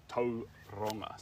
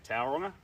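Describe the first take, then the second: First: Tauranga said slowly with a rolled R; slow Tauranga, "Tau" like "toe", R trilled. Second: Tauranga with "Tau" as in "towel"; English-style "Tow-ronga" for Tauranga; anglicised pronunciation. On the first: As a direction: roll the R in Tauranga, "Toe-rronga". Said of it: "So you roll the R". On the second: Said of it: "you can say Tauranga". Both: Shown as a demonstration.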